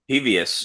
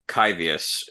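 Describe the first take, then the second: First: The word begins with a breathy h sound. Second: The word begins with a hard k sound. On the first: The X is read the Spanish way. "if we want to go with more of a Spanish pronunciation" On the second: The X is read like the Greek letter chi. "if this was meant more to be like the Greek letter chi"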